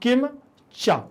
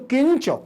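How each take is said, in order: First: The two words are said apart, one by one. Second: The two words are joined into one word. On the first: "अलग अलग पढ़ेंगे तो" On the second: "एक साथ पढ़ेंगे तो"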